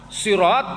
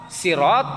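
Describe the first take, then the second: The two takes are said the same way.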